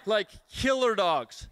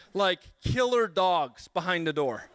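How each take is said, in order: First: "killer" drawn out and stressed, slow. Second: Said in the usual way. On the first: Retold or imitated. Guest repeats to the audience, stressing "killer" slowly. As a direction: lean hard and slow into "killer".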